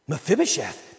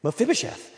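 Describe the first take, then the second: First: Said in the usual way. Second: Mephibosheth sung out high with a rising lilt; relishing Mephibosheth with a lifted finish; savoring the name. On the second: Shown as a demonstration. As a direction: try the name on playfully, up high. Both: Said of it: "I'm gonna start using that".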